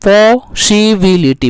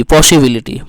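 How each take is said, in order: First: पॉसिबिलिटी slowly, syllable by syllable; split into syllables. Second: Said in the usual way. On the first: Shown as a demonstration. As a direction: stretch each beat of पॉसिबिलिटी, पॉ-सि-बि-लि-टी. (पॉसिबिलिटी को खंडों में धीरे बोलना) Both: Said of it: "आ रहा है कि नहीं".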